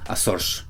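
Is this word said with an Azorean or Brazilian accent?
Azorean. It is said with an Azorean accent. "específicamente en las Islas Azores, podrían pronunciarlo como"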